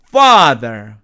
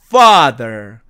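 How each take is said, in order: Both takes have the same delivery.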